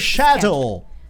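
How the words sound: Schedule is said the British way. The speaker calls it right. "We say schedule"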